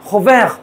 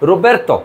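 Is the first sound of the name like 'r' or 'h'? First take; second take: h; r. First: It starts with a throaty h and ends clipped. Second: It starts with r and ends in -erto. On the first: This is how the French say it. "ফরাসিরা বলবে হোবেখ" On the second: This is how Italians say it. "Italy রোবের্তো"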